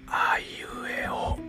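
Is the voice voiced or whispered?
whispered. The vowels are whispered without voice. "この無声音ですね。無声音で母音を言いました。"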